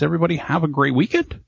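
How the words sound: The voice rises at the end like a question. It sounds like an uncertain question. The speaker calls it wrong.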